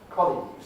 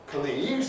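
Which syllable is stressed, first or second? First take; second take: first; second. First: The stress is on the first syllable. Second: The stress is on the second syllable. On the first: The speaker calls it right. "it's stressed on the col" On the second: The speaker calls it wrong. "it's not stressed on the league"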